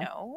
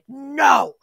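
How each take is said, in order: First: The word is said calmly and quietly. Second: The word is yelled loudly.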